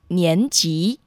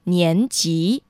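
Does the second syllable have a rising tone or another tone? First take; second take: rising; rising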